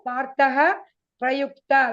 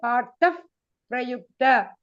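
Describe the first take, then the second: First: The word ends with an h-like breath sound. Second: The word ends with an f-like lip sound. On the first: The speaker calls it wrong. "We say no, partah prayukta" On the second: The speaker calls it right. "We say partaf prayukta"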